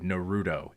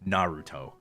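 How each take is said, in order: First: The syllable ru carries strong stress. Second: The syllable ru carries no strong stress. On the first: This is how many American fans say the name. The speaker calls it wrong. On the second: This is how the name is said in Japanese. The speaker calls it right.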